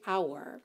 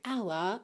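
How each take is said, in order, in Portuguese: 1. O R final é curvado com a língua. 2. O R final é omitido, sem curvar a língua.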